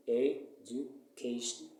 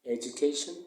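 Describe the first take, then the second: First: "education" slowly broken up, e - du - ca - tion; slow "education" with gaps between syllables. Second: Said in the usual way. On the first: Shown as a demonstration. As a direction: count out each syllable of "education". Teacher splits word into syllables.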